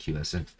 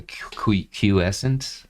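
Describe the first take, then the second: First: Said in the usual way. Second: False starts before "quiescent", rising at the end; halting, uncertain attempt at "quiescent"; stumbling over pronunciation. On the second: Real, not acted. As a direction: trip on the first sound of "quiescent", then get it out unsurely. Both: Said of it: "I can never pronounce that".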